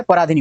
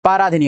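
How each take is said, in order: First: पराधिनी opened as pa; short first vowel. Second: पराधिनी opened as paa; long first vowel. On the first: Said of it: "होता है". (पराधिनी, छोटा प) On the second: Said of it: "ये गलत होता है". (पराधिनी, लंबा पा) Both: Shown as a demonstration.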